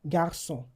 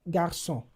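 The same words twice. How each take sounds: No difference in how they are said.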